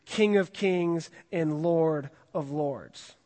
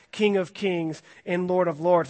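First: Stretched out, each word weighted; slow solemn reading. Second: King of Kings and Lord of Lords, pushed out a little louder; emphatic title. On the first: Acted. Pastor reading scripture to the youth group, slow and solemn. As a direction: proclaim it slowly, with reverence. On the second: Shown as a demonstration. Pastor showing the all-caps title to his group, emphatic. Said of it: "This is pretty emphatic".

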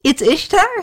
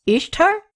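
First: High, amused disbelieving question; tipsy man checks the name a second time; giggly repeat question. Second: High rising one-word question; tipsy man asks the locals about the fresco. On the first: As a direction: ask it again, giggling at the answer. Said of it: "he asked again". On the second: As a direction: point and ask, delighted. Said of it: "pointed at the ... fresco and said". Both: Acted.

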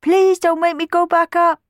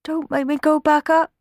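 First: Put-on higher, louder pleading child voice; begging boy. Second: Put-on higher, small pleading boy voice; whimpering boy. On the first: Sammy begging the children again, higher pleading. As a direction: beg desperately like a frightened child. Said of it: "begged Sammy again". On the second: Sammy begging the children, higher whimpering plea. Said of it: "whimpered Sammy".

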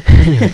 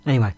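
First: High, loud laughing anyway. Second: Said in the usual way. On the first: Real, not acted. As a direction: burst out laughing on the word. Says anyway twice.

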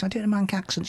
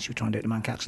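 First: Said in the usual way. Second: A quiet first go at a Manc accent; dropping into a Manchester accent mid-question; trying a Manc accent. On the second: Shown as a demonstration. To the co-host, testing a Manc accent.

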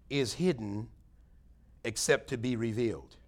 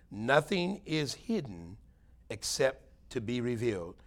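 First: Said in the usual way. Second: Slow, weighty repeat. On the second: Shown as a demonstration. Preacher repeats the verse so the congregation thinks, slow and weighty. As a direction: stretch out "Nothing is hidden" very slowly. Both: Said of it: "I want you to think about that today".

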